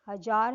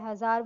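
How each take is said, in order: First: The middle consonant is a plain 'j' sound. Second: The middle consonant is a 'z' sound. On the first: "हजार है तो ज के नीचे" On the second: "ज के नीचे लग गया हजार बन गया"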